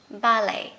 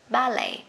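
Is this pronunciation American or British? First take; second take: British; British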